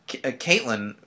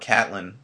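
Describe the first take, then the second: First: The name is said with three syllables, middle vowel sounded. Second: The name is said with two syllables, middle vowel dropped. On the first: The speaker calls it right. "If you put an E in that name, use it" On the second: The speaker calls it wrong. "which I can't stand that it's pronounced Catelyn"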